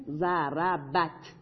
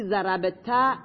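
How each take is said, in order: First: ضربت very slowly, syllable by syllable, closing on a bare t; vowelless final ta. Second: ضرب تا with an open long "a" after the t; slow ضرب تا, final t opened into "taa"; voweled final ta. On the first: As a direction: softly spell out ضربت as "za-ra-bat", no vowel after the t. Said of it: "چون این ساکنه". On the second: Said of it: "تای حرکت دار". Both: Shown as a demonstration.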